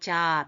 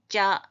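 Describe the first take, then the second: First: The first consonant is plain and relaxed. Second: The first consonant is tense and forceful. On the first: The speaker calls it wrong. "그냥 자, 편하게 이러지 말고" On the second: The speaker calls it right. "발음을 좀 해, 살려줘야 되니까"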